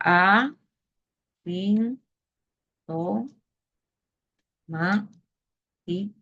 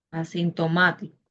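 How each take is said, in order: First: Word broken into separate syllables with long pauses. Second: Said in the usual way. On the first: Shown as a demonstration. Teacher sounding out asintomático for the class, syllable by syllable. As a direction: say each syllable on its own, pausing between.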